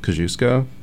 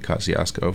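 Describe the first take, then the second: First: The name is said with a Polish pronunciation. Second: The name is said with an American English pronunciation. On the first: This is the original form of the name. "I think it's Polish, and it's technically pronounced Kosciuszko" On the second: This is how local residents have long said it. "The people in that neighborhood have been pronouncing it Kosciuszko"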